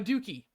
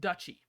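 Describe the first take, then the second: First: The word is said with a 'k' sound. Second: The word is said with a 'ch' sound. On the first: The speaker calls it wrong. "I said I'm going to play a dookie" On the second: The speaker calls it right. "This word is pronounced duchy"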